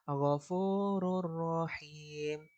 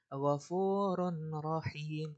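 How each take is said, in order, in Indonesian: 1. Bunyi n langsung menyatu ke dalam r. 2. Bunyi n jelas dibunyikan sebelum r. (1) "langsung masuk ke huruf ro setelahnya" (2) "Dia nggak boleh ghafurun rahim. Nah, itu salah"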